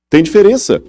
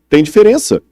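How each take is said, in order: Both takes have the same delivery.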